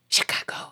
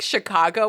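First: The word is whispered. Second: The word is spoken in a normal voice.

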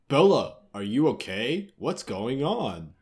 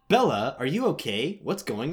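First: It is said in a put-on deep voice. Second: It is said in a normal, higher voice. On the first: The speaker calls it wrong. "Chuck doesn't have a deep voice" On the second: The speaker calls it right. "Yeah, that's totally it"

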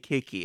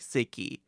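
First: The word begins with a hard K sound. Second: The word begins with an S sound. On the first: "when I pronounce it, I say "kiki."" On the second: "I certainly understand why one would say "sicky.""

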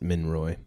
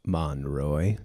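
First: The first syllable sounds like 'min'. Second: The first syllable sounds like 'mon'. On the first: The speaker calls it wrong. "I pronounce it Minroy. That's not correct" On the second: The speaker calls it right. "Monroy, sorry"

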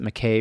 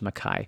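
First: The name is said the common American way. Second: The name is said the original, older way. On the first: "here we tend to pronounce it" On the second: "the original pronunciation was"

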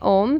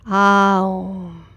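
First: It is said quickly as one vowel. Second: It glides through separate sounds, A-U-M. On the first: This is the common casual way. The speaker calls it wrong. "we quickly all say Om" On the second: This is the truer form of the syllable. The speaker calls it right. "but really it's Aum"

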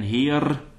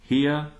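First: The final R is rolled. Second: The final R is not rolled. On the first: The speaker calls it wrong. "So I wouldn't say schwebt ein Heer" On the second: The speaker calls it right. "it's better to go Heer"

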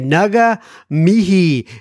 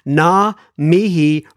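First: The first word has two syllables. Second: The first word has one syllable. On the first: The speaker calls it wrong. "I used to say nuga mihi" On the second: The speaker calls it right. "am I saying it right that time?"

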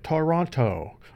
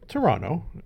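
First: Toronto is pronounced the non-local, outsider way. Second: Toronto is pronounced the local resident's way. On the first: The speaker calls it wrong. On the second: The speaker calls it right.

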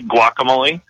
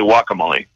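First: The word begins with a hard G sound. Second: The word begins with a W sound. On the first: "do you also say" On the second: "Or you say"

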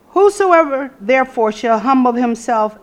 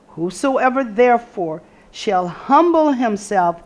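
First: It is read at a faster pace. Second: It is read at a slower pace.

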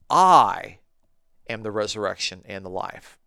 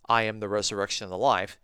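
First: The word I carries strong stress. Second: The word I carries no special stress. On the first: The speaker calls it right. "You need to be putting emphasis on the subject" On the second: The speaker calls it wrong. "you're not thinking that Jesus is saying"

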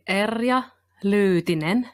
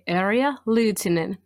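First: The name is said with native Finnish pronunciation. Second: The name is said with simplified English-style pronunciation. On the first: "the Finns would say" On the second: "to help you guys out, you can say"

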